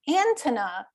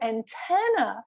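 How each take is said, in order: First: The stress falls on an unexpected syllable. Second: The stress falls on the expected syllable. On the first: The listener cannot recognize the word. The speaker calls it wrong. "he had the stress on the wrong syllable" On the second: The listener recognizes the word. The speaker calls it right.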